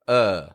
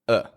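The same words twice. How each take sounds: First: The vowel is said strong and full. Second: The vowel is said weak and quiet.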